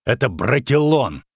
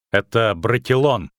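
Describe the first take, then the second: First: Emphatic scolding declaration; angry warning. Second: Understated pride; proud declaration. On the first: Witcher warning the runaway girl, angry. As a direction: drive the forest's name home sternly. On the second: Dryad justifying her shot to the witcher, proud. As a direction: state it firmly with a touch of pride. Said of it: "гордо проговорила она". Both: A narrator's reading.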